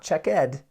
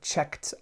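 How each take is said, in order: First: The ending is an extra syllable. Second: The ending is a short T sound. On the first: The speaker calls it wrong. "not check ed. We don't say check ed" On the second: The speaker calls it right. "We actually make the T sound"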